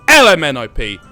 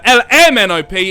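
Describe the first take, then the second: First: The stress falls on the letter L. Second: The stress falls on the letter M. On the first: The speaker calls it right. "you could you put emphasis on all the other letters, sounds better" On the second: The speaker calls it wrong. "it just doesn't quite go as nicely"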